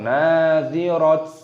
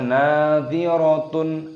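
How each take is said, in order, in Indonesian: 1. Kata ini berakhir dengan bunyi t. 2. Kata ini berakhir dengan akhiran -tun penuh. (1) "atau nadhirat" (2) "jangan dibaca nadhiratun"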